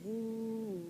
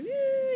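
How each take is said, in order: First: The pitch goes down and the call is lower. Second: The pitch goes up and the call is fast. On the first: The horse should slow down. "you come lower and lower" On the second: The horse should speed up. "you like raise your voice higher and faster"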